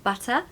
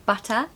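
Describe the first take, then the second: No difference in how they are said.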